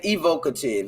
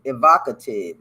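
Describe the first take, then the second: First: "evocative" with a long O, ee-VOH-kuh-tiv; mispronounced word. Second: "Evocative" with short stressed O, ee-VAH-kuh-tiv; corrected pronunciation. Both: Shown as a demonstration. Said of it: "That's not it".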